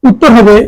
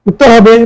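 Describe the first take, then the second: Both takes have the same delivery.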